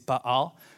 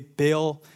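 First: The name is said with a Hebrew pronunciation. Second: The name is said with an American pronunciation. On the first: "The Hebrew way is Baal" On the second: "that's the American way to pronounce it"

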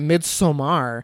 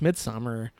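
First: The stress is on the second syllable. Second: The stress is on the first syllable. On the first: The speaker calls it wrong. "People insist on calling it Midsommar" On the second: The speaker calls it right. "It's Midsommar"

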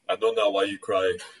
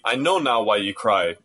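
First: It is said in an imitated character voice. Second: It is said in an ordinary speaking voice. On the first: "Give me the voice now" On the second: "I'm not doing the voice that does it"

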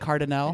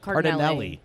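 First: The name ends with an 'ah-lay' sound. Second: The name ends with an 'elly' sound. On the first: The speaker calls it wrong. "Did I say it right" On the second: The speaker calls it right. "No, Cardinelli"

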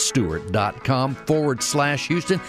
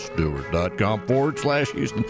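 First: It is said at normal speaking pitch. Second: It is said in a deliberately lowered voice.

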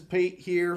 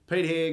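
First: It is said in an attempted American accent. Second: It is said in a non-American accent.

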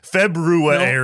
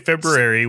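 First: The R is sounded with heavy, exaggerated emphasis. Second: The R is sounded lightly and naturally. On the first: The speaker calls it wrong. "if you overly lean into the pronunciation, it's annoying" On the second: The speaker calls it right. "If you say February with an R, it's fine"

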